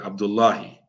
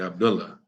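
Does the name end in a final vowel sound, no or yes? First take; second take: yes; no. First: The name ends with an added final i vowel. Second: The name ends on the h, no final vowel. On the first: "we just keep the vowel on it" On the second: "we usually don't pronounce the last vowel"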